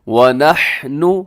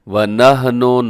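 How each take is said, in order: First: The word is said slowly and carefully. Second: The word is said quickly and carelessly. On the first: The speaker calls it right. "रुक कर आराम से" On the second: The speaker calls it wrong. "ये बिल्कुल गलत है"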